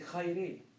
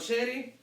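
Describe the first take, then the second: First: The word begins with a harsh kh sound. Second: The word begins with a soft sh sound. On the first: "the way you greet somebody in ancient Greek, you would say khayri" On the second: "sheri is the way, it's how it's pronounced now"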